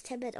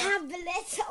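First: "Tablet" said the English way, TAB-let; "Tablet" with English first-syllable stress; misread as English tablet. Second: "Tablett" stressed on the last syllable, ta-BLETT; emphatic "Tablett", German end stress; corrected German pronunciation. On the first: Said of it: "Tablet schreibt man mit einem T". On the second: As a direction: say "Tablett" the German way, loud and high. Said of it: "steht jetzt mit zwei T". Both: Real, not acted.

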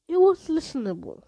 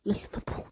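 First: Said in the usual way. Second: Puzzled whisper. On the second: Real, not acted. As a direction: whisper "Listenable?" softly, doubting the word. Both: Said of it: "That isn't even a word".

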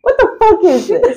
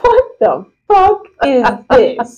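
First: Higher, laughing incredulous outburst; high-pitched disbelief. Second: Slow, drawn-out incredulous question; laughing disbelief. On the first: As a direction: squeal the question through laughter. Repeats the stunned question, higher. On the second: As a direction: space out each word in amused disbelief. Stunned reaction to the article. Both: Real, not acted.

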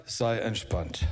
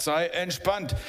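First: Soothing words against the storm. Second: Said in the usual way. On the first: Acted. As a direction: settle them down gently. Third calming, ship sinking.

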